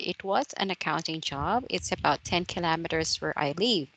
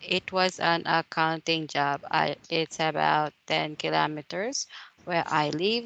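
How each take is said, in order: First: It is said smoothly, without hesitation pauses. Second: It is said hesitantly, with pauses and fillers. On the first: The speaker calls it right. "when you say natural" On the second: The speaker calls it wrong. "So you have to count the pauses"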